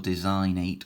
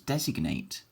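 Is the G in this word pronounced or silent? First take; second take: silent; pronounced. First: The G is silent, as in design. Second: The G is clearly pronounced. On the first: The speaker calls it wrong. "you don't say designize or designate" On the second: The speaker calls it right. "you completely change how you say it. It becomes designate"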